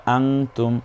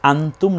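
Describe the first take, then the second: First: আংতুম with the n hidden into a nasal ং; ikhfa. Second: আনতুম with a crisp short ন before তুম; clear n, no ikhfa. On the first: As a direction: say আংতুম, humming ং instead of a clear ন. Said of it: "আনতুম না বলে আমরা বলবো". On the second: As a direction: say আনতুম with a plain, unhidden ন. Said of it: "না বলে আমরা বলবো". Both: Shown as a demonstration.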